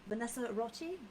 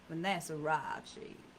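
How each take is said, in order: First: It is said in a British accent. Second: It is said in a Louisiana accent.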